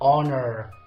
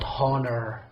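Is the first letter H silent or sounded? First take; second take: silent; sounded. First: The word starts without an H sound. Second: The word starts with an H sound. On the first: The speaker calls it right. "So I say honor" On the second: The speaker calls it wrong. "not honor"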